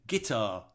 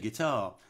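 First: The stress falls on an unusual syllable. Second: The stress falls on the usual syllable. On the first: The stress is shifted to fit a melody. The speaker calls it wrong. "people often sing guitar. What the hell is that?" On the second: This is how the word is normally spoken. The speaker calls it right. "we all say guitar"

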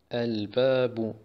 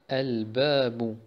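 Both takes have the same delivery.

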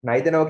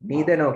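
First: It is said with a British English pronunciation. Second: It is said with an American English pronunciation. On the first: "කියන්නේ British English" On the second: "කියන්නේ American English"

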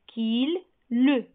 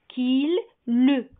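The two takes are said the same way.

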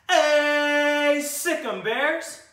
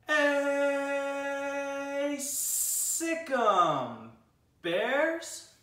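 First: It is said at normal speed. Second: It is said very slowly, drawn out.

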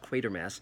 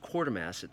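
First: The first syllable does not sound like 'quarter'. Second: The first syllable sounds like 'quarter'. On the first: The speaker calls it right. "No, it's Quatermass" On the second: The speaker calls it wrong. "often that's mispronounced Quartermass"

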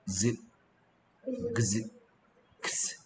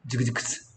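First: The three sounds are said slowly and separately. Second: The three sounds are said quickly and run together.

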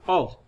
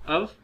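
First: The word has a full, strong vowel. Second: The word has a weak schwa vowel. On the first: "अब यहाँ पे देखें ओ sound दे रहा है" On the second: "यहाँ पे श्वा की साउंड देगा।"

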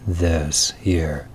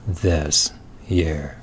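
Both takes have the same delivery.

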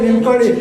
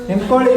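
Both takes have the same delivery.

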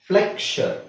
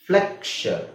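No difference in how they are said.

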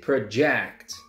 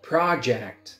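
First: The stress falls on the second syllable. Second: The stress falls on the first syllable. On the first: It is a verb: to throw forward or display. "But if it's a verb, you say project" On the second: It is a noun: a piece of work. "It's a noun"

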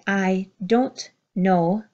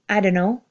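First: Each word is said fully and separately. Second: The words blend together in a reduced form.

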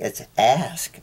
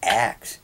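First: The s sound comes before the k sound. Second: The k sound comes before the s sound. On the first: "It's A-S-K, it's ask" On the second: "it's not axe. It's dialect"

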